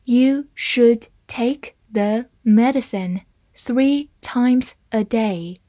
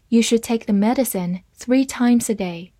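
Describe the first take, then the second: First: Slow, careful read-through; deliberate slow model sentence. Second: Said in the usual way. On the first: Shown as a demonstration. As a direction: read it slowly for the class. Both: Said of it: "好，慢慢来读。".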